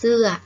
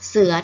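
First: The syllable is said with a falling tone. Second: The syllable is said with a low tone. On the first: "เสือโท" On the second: "เสือเอก"

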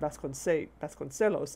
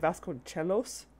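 First: The ce is soft, with a plain l. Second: The ce is said with a ch sound. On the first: "It should just be the soft C" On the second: "the CE being pronounced with a CH sound, which is wrong"

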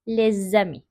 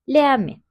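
First: The words are joined by a z sound. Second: The words are said separately with no z link. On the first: The speaker calls it right. "Kelimeleri birleştiriyoruz" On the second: The speaker calls it wrong. "Leami diye okursak hem telaffuzumuz yanlış oluyor"

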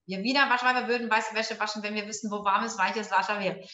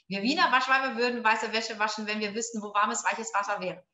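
No difference in how they are said.

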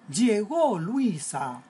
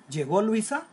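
First: It is said as an emotional exclamation. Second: It is said as a question.

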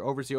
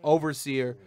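First: The word is said at a fast pace. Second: The word is said at a slow pace.

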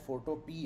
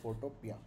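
First: The name ends with a plain 'pee' sound. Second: The name ends with a 'pee-ah' sound. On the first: "इसकी सही pronunciation शायद फ़ोटो पी है, जो दाल वाला पी होता है" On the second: "लेकिन हम इसको कहते हैं फोटोपिया"

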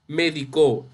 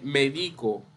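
First: The stress is on the last syllable. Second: The stress is on the middle syllable. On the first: He medicated me. "cuando es aguda, me refiero a medicó" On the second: I medicate myself. "También esta palabra puede ser grave o llana"

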